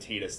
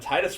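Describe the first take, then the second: First: The first syllable sounds like 'tee', as in teat. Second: The first syllable sounds like 'tie', as in tide. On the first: The speaker calls it wrong. "than Titus does" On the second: The speaker calls it right. "rolls off the tongue way better"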